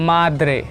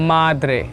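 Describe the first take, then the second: The two takes are said the same way.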